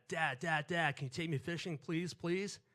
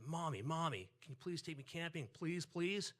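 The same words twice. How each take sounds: First: Put-on loud, insistent kid pestering dad; pleading child. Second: A hint of a begging kid, higher at the end; lightly voiced child pleading with mom. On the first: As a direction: beg dad loudly, pitch rising on the pleases. Child begging his dad to go fishing. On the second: Child begging his mom to go camping.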